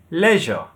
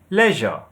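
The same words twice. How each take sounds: First: It is said in a British accent. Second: The same.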